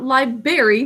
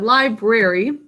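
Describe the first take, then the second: First: One sound in the middle is dropped. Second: Every letter sound in the word is said. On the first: The speaker calls it wrong. "Not library" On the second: The speaker calls it right. "but library. This one does not have silent letters"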